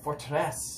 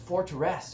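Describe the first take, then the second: First: The name is said with a French accent. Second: The name is said with an English accent.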